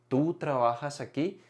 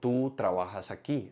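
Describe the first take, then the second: First: It is said as a question. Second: It is said as a statement.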